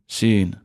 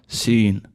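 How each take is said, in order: No difference in how they are said.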